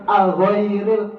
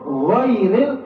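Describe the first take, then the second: First: An extra 'a' vowel comes before 'gh'. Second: The word starts directly with the 'gh' sound. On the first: The speaker calls it wrong. "jangan aghairil, pakai a dulu" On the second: The speaker calls it right. "Gho aja langsung ghairil"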